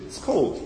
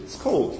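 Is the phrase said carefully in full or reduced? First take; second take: reduced; reduced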